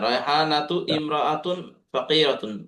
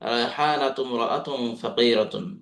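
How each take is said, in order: First: The second word starts with a separate glottal catch. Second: The first word's ending runs straight into the second. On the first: "রায়হানাতু ইমরাআতুন ফাকিরাতুন বলতে পারেন" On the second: "হামজাটাকে বাদ দিয়ে সরাসরি মিমকে ধরে"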